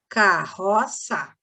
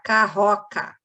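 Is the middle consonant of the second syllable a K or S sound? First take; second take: S; K. First: The last syllable starts with an S sound. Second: The last syllable starts with a K sound. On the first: The speaker calls it right. "Boto C cedilha" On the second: The speaker calls it wrong. "se eu botar só um C, vai ficar carroca"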